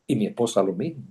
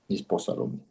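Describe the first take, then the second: First: Said in the usual way. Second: Whispered echo. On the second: Real, not acted. Whispered echo of previous line.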